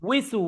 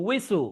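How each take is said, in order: No difference in how they are said.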